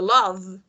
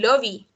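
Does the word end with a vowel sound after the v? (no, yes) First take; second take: no; yes. First: The word ends on the v sound. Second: An ee vowel sound follows the final v. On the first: The speaker calls it right. "yo digo love" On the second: The speaker calls it wrong. "ni lovey"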